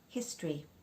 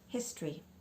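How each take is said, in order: Both takes have the same delivery.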